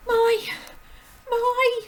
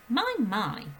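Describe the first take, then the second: First: Put-on high, loud girlish "My, my"; Matilda's voice by mistake; squeaky high "My, my" in the wrong character. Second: Gentle teacher's "My, my", only slightly higher; corrected into Miss Honey's voice; mild, kindly "My, my". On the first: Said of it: "I did that the wrong way round". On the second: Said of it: "That was Miss Honey that said that". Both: Shown as a demonstration.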